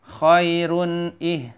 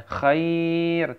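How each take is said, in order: First: "khairun" chanted higher with a clear held n before "ih"; sustained recitation of "khairun ih"; joined form. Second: "Khair" chanted higher with a long held ai; long drawn "Khair" on a steady note; lengthened ending. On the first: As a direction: link "khairun" into "ih", slowly. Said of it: "Maka menjadi". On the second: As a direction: stretch the middle of "Khair" before the stop. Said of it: "jadinya panjang ya". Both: Shown as a demonstration.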